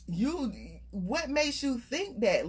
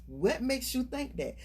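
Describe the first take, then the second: First: Slowed, weighing each word; drawn-out probing question; slow pointed question. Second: Said in the usual way. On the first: Shown as a demonstration. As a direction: lean into "makes" and make them think. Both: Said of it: "you really have to go through that in your mind".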